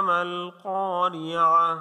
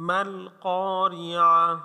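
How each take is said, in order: No difference in how they are said.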